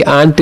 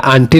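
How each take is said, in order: First: आंट in one syllable, AANT; correct pronunciation. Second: आंटी in two syllables, AAN-tee; wrong pronunciation. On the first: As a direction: end आंट on the t, without "ee". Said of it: "आंट इसको पढ़ना है". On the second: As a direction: add a long "ee" to the end of आंटी. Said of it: "आंटी नहीं पढ़ना है". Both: Shown as a demonstration.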